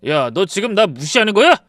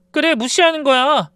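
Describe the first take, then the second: First: Loud, rising angry question; husband shouting at his wife. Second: Higher, louder, falling retort; wife throwing his words back at him; defiant echo. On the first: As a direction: snap it at her. Husband yells. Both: Retold or imitated.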